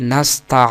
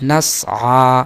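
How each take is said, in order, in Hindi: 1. s के बाद t ध्वनि आती है। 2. s के बाद गले की ध्वनि आती है। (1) "बाज लोग यहाँ ता बढ़ा देते हैं" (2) "हालांकि गलत है"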